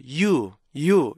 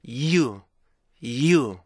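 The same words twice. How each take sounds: First: You as a long plain yoo; 잘못된 you 발음. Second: You pushed out from a y stop, yi-u; 올바른 you 발음. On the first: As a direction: say you with no stop before it. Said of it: "이렇게 발음하지 마시고요". (스탑 없는 you) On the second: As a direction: begin you with a held y, then glide. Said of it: "앞에 it". (스탑에서 시작하는 you) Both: Shown as a demonstration.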